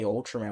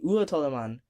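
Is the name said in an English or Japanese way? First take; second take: English; Japanese. First: The name is said with English pronunciation. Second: The name is said with Japanese pronunciation. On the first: "we wouldn't say Ultraman" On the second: "if we all really pronounced things the Japanese way, ... we would say Ultraman"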